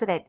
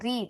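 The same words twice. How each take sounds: First: It is said with the past-tense vowel. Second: It is said with the present-tense vowel. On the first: The action happened in the past. The speaker calls it wrong. "You will not say as read" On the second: The action happens now. The speaker calls it right. "you will pronounce it as read"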